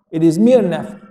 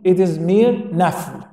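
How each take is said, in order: First: Said in the usual way. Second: "mere" drawn out and stressed, the whole line slow; slow emphasis on mere. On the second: Shown as a demonstration. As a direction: lean on "mere" slowly to make the point.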